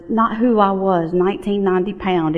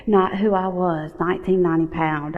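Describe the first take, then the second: First: Not who I was, nineteen ninety pound spoken slowly, each word weighted; a motto she has said a thousand times; slow deliberate mantra. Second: Said in the usual way. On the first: Shown as a demonstration. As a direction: lean into who like a creed. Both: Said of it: "my password for about a decade".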